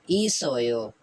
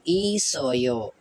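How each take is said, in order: First: ई सो यो run together as one word; now say ई सो यो smoothly as a whole word; blended word. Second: Each syllable of ई सो यो said slowly and separately. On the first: Teacher blending the syllables into one word for students. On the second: Teacher spelling out a Korean word slowly for students. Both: Shown as a demonstration. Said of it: "vowel है यो".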